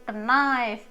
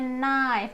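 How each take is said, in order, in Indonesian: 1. Kata ini diawali bunyi k yang dibaca. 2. Kata ini diawali bunyi n, k tidak dibaca. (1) "bukan knife gitu, jangan ya" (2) "n-nya nggak dibaca, jadinya knife"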